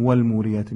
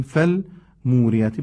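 First: والموریاتی opening with a wa sound; "wal-" at the start of والموریاتی; wrong opening sound. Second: فالموریاتی opening with an f sound; "fal-" at the start of فالموریاتی; correct opening fa. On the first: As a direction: begin والموریاتی with "wal" as the mistaken reading. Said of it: "نمیگیم والموریاتی". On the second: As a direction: begin فالموریاتی clearly with "fal". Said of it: "میگیم فالموریاتی". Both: Shown as a demonstration.

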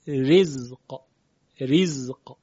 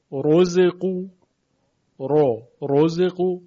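First: "رزق" slowly, with a thin, light R; light tarqiq R. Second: "رزقو" with a thick, heavy R, loud; heavy tafkhim R. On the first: Teacher contrasts R sounds, here thin and light. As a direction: draw out "رزق" with a fine, delicate R. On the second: Teacher contrasts R sounds, here heavy and emphatic. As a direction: open "رزقو" on a full, emphatic, rounded "رو". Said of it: "حرف را مفخمه، درشته". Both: Shown as a demonstration.

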